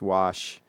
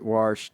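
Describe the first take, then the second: First: The word has no R sound before the sh. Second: The word has an R sound before the sh. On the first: The speaker calls it right. "There is no R" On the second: The speaker calls it wrong. "putting an R in there"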